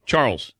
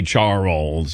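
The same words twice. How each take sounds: First: Charles said softly as one syllable; usual one-syllable pronunciation. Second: Charles mimicked as CHAR-olls; mimicked two-syllable pronunciation. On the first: Shown as a demonstration. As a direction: say Charles in a single natural beat. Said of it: "but I don't say Charles". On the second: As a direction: echo Charles broken in two, as the other man said it. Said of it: "I don't say Charles".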